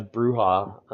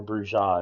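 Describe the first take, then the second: First: Bruja said as BROO-hah; first pronunciation. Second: Bruja said as broo-ZHAH; alternative pronunciation. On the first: Storyteller listing players' vampire clans, Bruja said BROO-hah. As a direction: say Bruja with an h sound for the j. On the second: Storyteller offering listeners another pronunciation, Bruja said broo-ZHAH. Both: Shown as a demonstration. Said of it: "however you wanna pronounce it".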